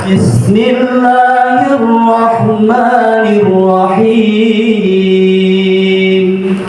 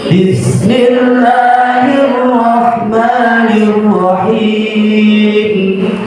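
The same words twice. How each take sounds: No difference in how they are said.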